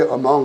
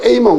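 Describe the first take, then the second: First: The first vowel is a weak 'uh' sound. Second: The first vowel is a full 'ay' sound. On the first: The speaker calls it right. "그런데 어멍 그러거든요. 강세가 없으니까" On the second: The speaker calls it wrong. "또 A멍 그래야 될 거 아니에요"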